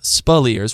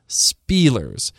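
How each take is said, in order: First: The stress is on the second syllable. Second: The stress is on the first syllable. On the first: The speaker calls it right. "with the emphasis on the second syllable" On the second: The speaker calls it wrong. "not Spielers"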